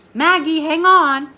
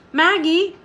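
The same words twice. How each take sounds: First: Maggie, hang on called out louder and higher; urgent call. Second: Maggie called high with a rising tune; alarmed call. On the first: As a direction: urge her to hold on, on stressed. Rider urges swaying girl. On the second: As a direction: call her name as she sways. Rider calls swaying girl. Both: Acted.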